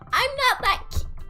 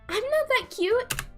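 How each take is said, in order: First: It is said in a high put-on character voice. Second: It is said in the speaker's normal everyday voice.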